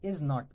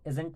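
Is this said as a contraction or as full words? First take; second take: full words; contraction. First: It is said as two full separate words. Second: It is said as one shortened contracted word.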